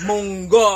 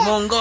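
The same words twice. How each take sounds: First: Excited. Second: Very high, bright sing-song; high playful squeal. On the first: Excited naming baby's favorite food. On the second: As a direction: squeal the word munggo. Repeats it higher, playful. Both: Real, not acted.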